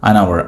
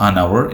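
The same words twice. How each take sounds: No difference in how they are said.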